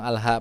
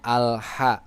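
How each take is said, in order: First: The h is an ordinary plain h. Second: The h is a soft breathy throat h. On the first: The speaker calls it wrong. "Banyak orang yang bilang al-ha" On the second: The speaker calls it right. "padahal itu adalah huruf ha. Jadi bacanya"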